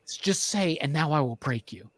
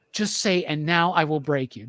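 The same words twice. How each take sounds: First: Low, soft urging at the screen; quietly willing a character to say it; hushed pleading. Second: Retold plea, now fully voiced; willing a character to say it; insistent pleading. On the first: Retold or imitated. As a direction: plead under your breath. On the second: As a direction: urge it a second time, firmer. Repeats the plea, more insistent.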